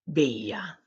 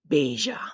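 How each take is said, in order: First: The double L sounds like English Y. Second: The double L sounds like English J. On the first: "sounding like the letter Y" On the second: "sounding like a J"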